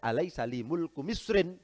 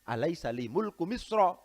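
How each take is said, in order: First: The last word ends with an -in sound. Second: The last word ends with a plain -a sound. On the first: The speaker calls it wrong. "Bukan alaisa li mulku misrin, bukan begitu" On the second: The speaker calls it right. "Tidak ditanwin"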